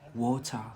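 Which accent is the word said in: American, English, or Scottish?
English. The word is said in an English accent. "In Brit in England, they say water"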